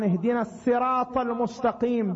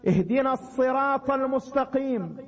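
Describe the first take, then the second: First: الصراط with a plain, light S; Sin in الصراط. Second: الصراط with an emphatic, dark S; Sad in الصراط. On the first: Preacher showing listeners another Quran reading, الصراط with a light Sin. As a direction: say الصراط as sirat, with Sin for Sad. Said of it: "بالسين". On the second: Preacher showing listeners one of several Quran readings, الصراط with emphatic Sad. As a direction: say الصراط with a heavy Sad, not Sin. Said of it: "بالصاد". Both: Shown as a demonstration.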